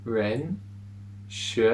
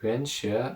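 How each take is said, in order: First: "Ren", pause, "Shi", each with the rising second tone; slow syllable by syllable. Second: "Ren Shi" said as one word, both syllables with the rising second tone; joined up. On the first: Teacher breaks the word into syllables for students, showing the rising tone. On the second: Teacher puts the syllables back together for students to say along. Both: Shown as a demonstration. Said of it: "Ren Shi is the second tone, the rising tone".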